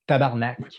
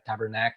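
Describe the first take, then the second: First: It is said with a Quebec French accent. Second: It is said with an English accent. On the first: "in real Quebecois" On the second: "I'm trying to to say it with the uh, English accent instead of saying it in Quebecois"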